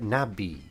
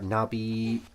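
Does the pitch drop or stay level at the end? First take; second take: drop; level. First: The pitch drops at the end. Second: The pitch stays level at the end. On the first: "with an E, it maybe it indicates that you lower it" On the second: "if you just use the stick, maybe it would just be like"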